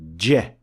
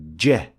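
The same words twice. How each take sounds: First: The consonant is a short burst that stops. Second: The same.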